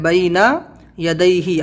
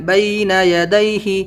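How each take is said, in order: First: بینا then a pause, then یا دئی ہی; separately, word by word. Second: بینا یا دئی ہی run together in one breath; joined smoothly. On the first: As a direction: split بینا from یا دئی ہی with a clear break. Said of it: "الگ الگ، پھر آپ اس کو ملائیں". (بینا اور یا دئی ہی الگ الگ) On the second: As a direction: join بینا یا دئی ہی without a break. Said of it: "پھر آپ اس کو ملائیں". (بینا یا دئی ہی ملا کر) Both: Shown as a demonstration.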